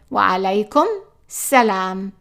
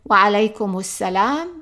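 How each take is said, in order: First: The m of alaykum ends without a vowel. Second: A u vowel follows the m of alaykum. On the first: "here we drop in the u sound" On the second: "we would say"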